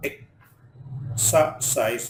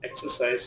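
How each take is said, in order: First: "exercise" pulled apart for learners; split syllables. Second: Said in the usual way. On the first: Shown as a demonstration. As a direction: pause between the syllables of "exercise". Word split by syllable, then whole.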